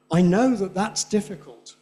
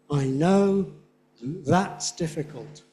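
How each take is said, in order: First: First that weak, second strong; weak then strong that. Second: That's stressed, slow; strong that's. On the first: Teacher showing weak that beside strong that. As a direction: contrast the two thats. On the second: Teacher slowing to show strong that's. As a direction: lean on that's. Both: Shown as a demonstration. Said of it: "Different in Spanish".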